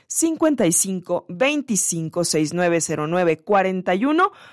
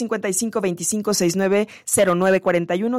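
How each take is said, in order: First: The number is said at a slower pace. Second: The number is said at a quicker pace.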